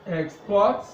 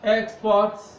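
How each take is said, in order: First: The stress is on the second syllable. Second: The stress is on the first syllable. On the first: It is a verb. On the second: It is a noun.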